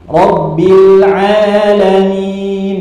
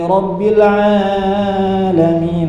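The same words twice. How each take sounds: First: The vowel after the ain is kept short. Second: The vowel after the ain is stretched too long. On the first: The speaker calls it right. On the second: The speaker calls it wrong.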